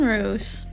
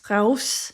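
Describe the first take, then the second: First: The name is said with an English-style vowel. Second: The name is said with a Dutch-style vowel.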